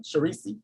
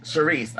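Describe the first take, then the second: First: Sharisi said as sha-REE-see, tentative and rising; trying out Sharisi as a guess; unsure name guess. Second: Sharice said as sha-REECE, firm and falling; corrected name. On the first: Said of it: "Am I s". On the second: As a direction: repeat Sharice back properly. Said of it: "I know I was just trying to be extra". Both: Real, not acted.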